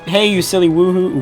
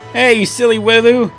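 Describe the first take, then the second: First: It is read without a put-on accent. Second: It is read with a put-on accent.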